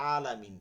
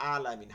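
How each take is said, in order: Both takes have the same delivery.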